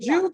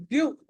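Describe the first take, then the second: First: జ్యు starting with a j sound; wrong j in జ్యు. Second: ద్యు as d joined to y, then u; dental d in ద్యు. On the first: Teacher echoes pupil's mistake, జ్యు said with j. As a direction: say జ్యు with j in place of dental d. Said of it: "జ్యు కాదండి". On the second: Teacher corrects the pupil, ద్యు with clear d plus y. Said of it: "జ్యు కాదండి, ద్యు". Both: Shown as a demonstration.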